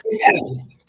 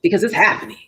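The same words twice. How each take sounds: First: Squeaked out much higher, joking; squeaky insistence. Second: Mock confident claim. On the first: Pretend. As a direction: insist in a high playful squeak. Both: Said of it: "No, it's not".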